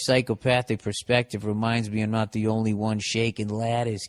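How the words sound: It is read in a Boston accent.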